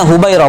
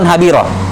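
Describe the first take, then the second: First: The first vowel is 'u', as in Hubairah. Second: The first vowel is 'a', as in Habirah. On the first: The speaker calls it right. "semua sudah tahu ini bacanya Hubairah" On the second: The speaker calls it wrong. "bukan Habirah"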